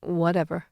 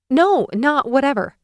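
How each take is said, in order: First: Flat, offhand brush-off; dismissive shrug. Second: Raised, sharp protest; firm objection. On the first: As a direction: throw the word away. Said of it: "He shrugs". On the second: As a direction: push back hard on the shrug. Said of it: "I glare". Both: A narrator's reading.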